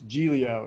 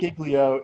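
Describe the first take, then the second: First: The g before the l is silent. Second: The g before the l is sounded. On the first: The speaker calls it right. "another silent G" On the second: The speaker calls it wrong. "It's not"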